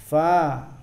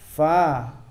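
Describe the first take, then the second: No difference in how they are said.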